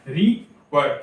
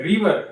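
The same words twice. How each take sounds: First: river split in two, ri, then var; two separate breaths for river; syllable by syllable. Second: Said in the usual way. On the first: Shown as a demonstration. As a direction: say river with a clear break between its two syllables. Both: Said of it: "एक ही बार में हम pronounce कर पा रहे हैं क्या?".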